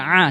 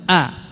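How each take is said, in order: First: It starts with a tight throat sound. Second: It starts with a plain glottal stop. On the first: The speaker calls it right. "Yang benar a" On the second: The speaker calls it wrong. "kebanyakan kita mengucapkannya dengan hamzah"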